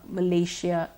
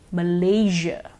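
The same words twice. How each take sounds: First: The middle consonant is a voiceless 'sh' sound. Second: The middle consonant is a voiced 'zh' sound. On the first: The speaker calls it wrong. "we've been using the sh so far" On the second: The speaker calls it right. "the correct pronunciation is actually with the j sound"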